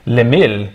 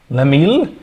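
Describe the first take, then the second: First: "Lemil" lower, with a falling end; name settled. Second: "Lemil" with a rising, questioning end; name as question. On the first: Streamer trying a viewer's name, "Lemil" low and falling. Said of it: "Maybe it's Lemil". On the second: Streamer guessing a viewer's name, "Lemil" rising in doubt. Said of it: "Who was that?". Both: Shown as a demonstration.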